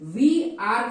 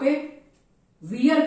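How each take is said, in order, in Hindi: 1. यह दो अलग-अलग शब्दों के रूप में बोला जाता है। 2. यह एक संकुचित शब्दांश के रूप में बोला जाता है।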